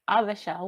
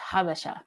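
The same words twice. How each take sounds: First: The word begins without an h sound. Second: The word begins with an h sound. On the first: This is how Ethiopians say it. "the Ethiopians say it Habasha with no H" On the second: This is how Eritreans say it. "Eritreans tend to say it with an H"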